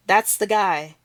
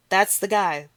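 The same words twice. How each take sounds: The two takes are said the same way.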